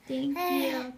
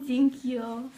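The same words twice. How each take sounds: First: "Thank you" repeated clearly, falling on "you"; teaching thank you again. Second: "Thank you" said loud and clear, stress on "Thank"; teaching thank you. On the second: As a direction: model "Thank you" for the baby to copy. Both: Shown as a demonstration. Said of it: "Can you say thank you?".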